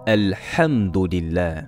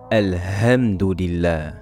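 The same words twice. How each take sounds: First: The h is a strong, throaty breath. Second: The h is a light, plain breath. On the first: The intended meaning is kept. The speaker calls it right. "donnez à chaque lettre son droit" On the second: The word's meaning is changed. The speaker calls it wrong. "ou la lettre Ha"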